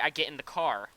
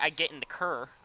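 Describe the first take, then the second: First: It is said in a plain American accent. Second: It is said in an exaggerated Canadian-style accent. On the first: This is how the speaker really talks. The speaker calls it right. "like a normal p- human being" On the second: This is how others claim the speaker talks. The speaker calls it wrong. "I don't say"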